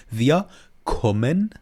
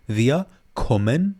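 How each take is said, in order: Both takes have the same delivery.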